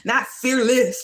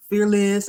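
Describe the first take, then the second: First: Slow and deliberate; slow, drawn out. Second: Fearless said loud and punched; stress on fearless. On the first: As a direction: stretch it out slowly, thoughtfully. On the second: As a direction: hit fearless hard and loud. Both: Shown as a demonstration.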